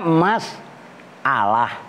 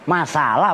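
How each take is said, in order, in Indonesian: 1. Ada jeda glotal setelah 'mas'. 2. Kata itu mengalir tanpa jeda setelah 'mas'. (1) "Sebenarnya kan bacanya mas alah" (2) "Tapi udah menjadi bahasa Indonesia"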